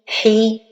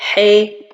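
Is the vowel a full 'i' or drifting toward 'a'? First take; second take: full; drifting. First: The vowel is a full, complete 'i'. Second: The vowel drifts toward an 'a' sound. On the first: The speaker calls it right. "la prononciation correcte est" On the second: The speaker calls it wrong. "ma voyelle kasra se penche vers al-fatha"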